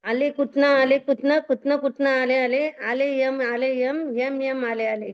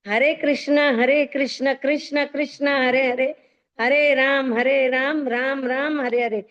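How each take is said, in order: First: The words are slurred with sounds badly mangled. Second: The words are pronounced clearly with every sound intact. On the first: The speaker calls it wrong. "बुढ़ापे में क्या निकलेगा मुंह से?" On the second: The speaker calls it right. "सही उच्चारण"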